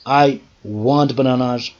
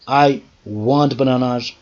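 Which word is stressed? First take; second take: bananas; bananas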